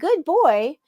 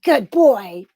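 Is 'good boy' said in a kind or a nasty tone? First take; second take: kind; nasty. First: It is said in a plain, kind tone. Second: It is said in a nasty, insulting tone. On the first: The words are meant literally as praise. "You can say, like" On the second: The words are meant as an insult despite their content. "but you say it like, ... they know what you're really saying"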